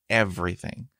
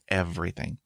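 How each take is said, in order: Both takes have the same delivery.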